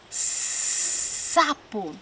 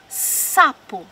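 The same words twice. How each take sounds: First: "sapo" with a very long hissed s before the vowel; stretched initial sound. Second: "sapo" with the opening s briefly held; initial sound shown. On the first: Teacher showing children the first sound, "sapo" with long hissed s. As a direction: draw out the first s of "sapo" at length. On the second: Teacher showing children the first sound, "sapo" with slightly held s. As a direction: say "sapo", lingering a little on the first s. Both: Shown as a demonstration. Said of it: "começam pelo mesmo som".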